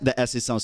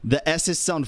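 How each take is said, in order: First: The S sounds are softened and sound natural. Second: The S sounds are sharp, strong and piercing. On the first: The speaker calls it right. "if I put it back to twenty-five, ... the S's sound so much better" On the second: The speaker calls it wrong. "If I take it off completely, the S's sound very, very strong and piercing"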